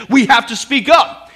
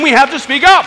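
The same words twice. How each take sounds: First: Louder, climbing call to speak up; rising preacher call. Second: Climbing louder, up rising at the end; higher, louder repeat of the call. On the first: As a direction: press the congregation to speak out. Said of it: "preacher urging congregation". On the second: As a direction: push the repeat harder, up lifts. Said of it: "repeat of the call, higher". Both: Real, not acted.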